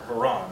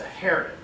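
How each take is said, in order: First: Haran stressed on the second syllable, huh-RAHN; alternative pronunciation of Haran. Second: Haran stressed on the first syllable, HAIR-un; first pronunciation of Haran. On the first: Teacher offering the other way to say the place name, Haran as huh-RAHN. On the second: Teacher giving one way to say the place name, Haran as HAIR-un. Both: Shown as a demonstration. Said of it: "however you want to pronounce it".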